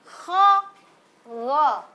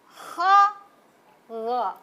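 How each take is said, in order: Both takes have the same delivery.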